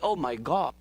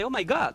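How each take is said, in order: First: The vowel in God is a rounded o. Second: The vowel in God is an open ah. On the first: "when they say" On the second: "Americans say, oh my God, like the ah"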